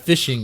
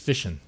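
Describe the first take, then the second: First: It ends with a full -ing sound. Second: It ends as a Southern 'fishin'.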